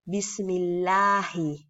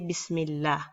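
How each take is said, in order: First: The word ends with a short i vowel. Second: The word ends without the final short vowel. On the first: The reading continues into the next word. "if you're going to continue reading, then you read the last vowel" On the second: The reader stops after this word. "since you're doing a stop, you just simply say Bismillah"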